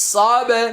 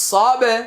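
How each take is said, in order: The two takes are said the same way.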